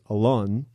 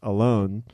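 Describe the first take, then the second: First: The name is said with a Hebrew pronunciation. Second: The name sounds like the English word alone. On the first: This is how the family says the name. The speaker calls it right. "in Hebrew, like the way my mother says my name is Alon" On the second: The name sounds like being lonely. The speaker calls it wrong. "it was pronounced Alone"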